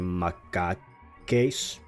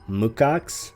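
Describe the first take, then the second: First: The word is said following its spelling. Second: The word is not said following its spelling. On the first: "I just want to say it how it's spelled usually" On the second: "I had to actually look up the pronunciation of that"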